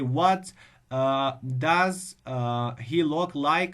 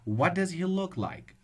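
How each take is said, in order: First: It is read with pauses and fillers between words. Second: It is read smoothly without breaks between words. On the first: The speaker calls it wrong. "They just have maxes be- between the words" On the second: The speaker calls it right. "So that's it"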